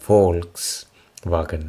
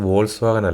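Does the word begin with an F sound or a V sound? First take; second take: F; V. First: The word begins with an F sound. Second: The word begins with a V sound. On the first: The speaker calls it right. "ഇവിടെ അതിനെ പ്രൊനൗൺസ് ചെയ്യുന്നത് ഫോൾക്സ് വാഗൺ എന്നാണ്" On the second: The speaker calls it wrong. "പക്ഷെ അത് വോൾസ് വാഗൺ അല്ല"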